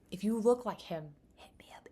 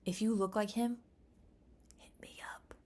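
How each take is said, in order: First: Breathy whisper, hit me up fading away; hushed, fading whisper. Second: Said in the usual way. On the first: Shown as a demonstration. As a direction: whisper the invitation. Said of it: "repeated, whispered". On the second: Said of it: "repeated plea".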